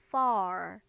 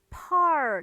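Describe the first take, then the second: First: The word begins with a clear f sound. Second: The word begins with a p-like sound. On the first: The speaker calls it right. "F 발음을 제발 살려서 읽어주세요" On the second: The speaker calls it wrong. "요거를 far 이렇게 읽으시면 안 돼요"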